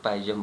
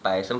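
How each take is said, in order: First: पायजम with a voiced "j" sound in the middle; other pronunciation, पायजम. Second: पायसम with an "s" sound in the middle; one pronunciation, पायसम. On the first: Teacher shows students the other pronunciation, पायजम said with j. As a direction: say पायजम as "PAI-jum", j replacing the s. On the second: Teacher shows students one of two pronunciations, पायसम said with s. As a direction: say पायसम as "PAI-sum", with a hissed s. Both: Shown as a demonstration. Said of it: "दो दो pronunciation है इसकी".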